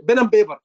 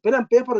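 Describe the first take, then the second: First: "Pen and paper" with p turned to b, "bin and baber"; slightly louder Egyptian "Pen and paper", b for p; Egyptian accent. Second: "Pen and paper" with clear p sounds, "pen and payper"; own accent. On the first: Teacher showing students the Egyptian "Pen and paper" with b sounds. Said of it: "That's Egyptian accent". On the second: Teacher contrasting his own clear-p "Pen and paper". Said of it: "is my accent". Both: Shown as a demonstration.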